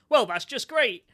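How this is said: It is said in a sincere, cheerful tone. The speaker is genuinely pleased. The speaker calls it wrong. "that's a positive sentence"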